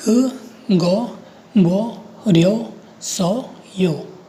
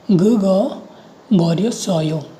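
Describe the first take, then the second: First: ग गो बो रियो सो यो very slowly, each syllable separate. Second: Said in the usual way. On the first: Shown as a demonstration. Teacher reading a new Korean line to learners, each syllable slow and separate. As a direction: sound out ग गो बो रियो सो यो with gaps. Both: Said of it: "नीचे वाली line को पढ़ते हैं".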